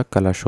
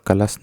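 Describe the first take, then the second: First: कलश said as "kalash"; correct final sh. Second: कलश mispronounced as "kalas"; "kalas" for कलश, as the error; wrong final s. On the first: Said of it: "श लगता है". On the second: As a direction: end कलश on a plain s, not sh. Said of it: "नहीं होता". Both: Shown as a demonstration.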